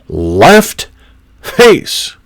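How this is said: The command is said with a clear pitch change. The speaker calls it right. "There has to be inflection in the command"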